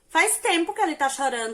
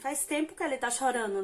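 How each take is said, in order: First: It is said in a hostile, reproachful tone. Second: It is said in a plain, neutral tone. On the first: The speaker calls it right. "Ela falou assim" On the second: The speaker calls it wrong. "mas ela não falou nesse tom que eu falei"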